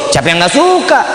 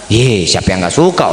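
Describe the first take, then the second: First: Livelier, higher-pitched repeat; raised retort. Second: Very low, held-down pitch; low-voiced retort. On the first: Retold or imitated. Speaker repeats his answer about the car, raised retort. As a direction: lift "siapa yang nggak suka" well up, dropping at the end. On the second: Speaker answers friend asking if he likes the car, low-voiced retort. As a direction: say "siapa yang nggak suka" down low and level.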